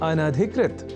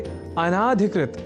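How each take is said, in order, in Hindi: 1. 'an' के बाद का स्वर ह्रस्व है। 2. 'an' के बाद का स्वर दीर्घ है। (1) "और वह शब्द है अनधिकृत" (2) "जिसे अनाधिकृत इस रूप में न केवल लिखने की ही अपितु बोलने की भी प्रवृत्ति या कुप्रवृत्ति बढ़ गई है"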